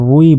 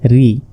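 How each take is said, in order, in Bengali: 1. স্বরটি ui-এর মতো শোনায়। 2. স্বরটি সাধারণ i। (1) "অনেকে রুই বলে" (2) "আসলে রজের রি"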